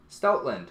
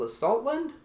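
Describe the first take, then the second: First: Stoutland said low, falling at the end; settled statement. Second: STOUTLAND rising high, as a question. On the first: Unboxer settling on a card name, falling Stoutland. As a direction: confirm "Stoutland" with a lower falling tune. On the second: Unboxer stumbling over a card name, questioning rise on Stoutland. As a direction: try out "Stoutland" unsurely, ending on a rise. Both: Real, not acted.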